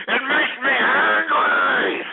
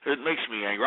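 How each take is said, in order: First: Anguished, high, drawn-out angry cry; enraged yell. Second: Low, soft, subdued admission; deflated anger. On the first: Host unable to calm down for his fans, enraged wail. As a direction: wail the fury out, stretching every word. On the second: Host apologising to fans after losing his temper, subdued. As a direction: drop right down, spent after the outburst. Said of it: "I'm sorry". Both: Real, not acted.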